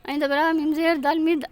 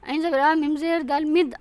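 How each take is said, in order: Both takes have the same delivery.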